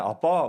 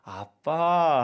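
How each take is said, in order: First: Called out in an ordinary, everyday tone. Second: Called out in a sweet, wheedling tone. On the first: The child is interested in the father himself. "평상시에는 아빠 막 이러다가" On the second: The child wants money from the father. "돈이 필요할 땐 아빠 하고 조금 이렇게 부르는 게 달라질"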